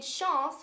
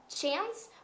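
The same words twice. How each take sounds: First: It is pronounced in a French-like way. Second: It is pronounced the English way. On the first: It means opportunity. "which is a little bit more French pronunciation" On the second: It means coincidence. "which is a synonym for coincidence in English"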